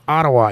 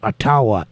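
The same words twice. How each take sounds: First: The name is said the everyday anglicized way. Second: The name is said the traditional way.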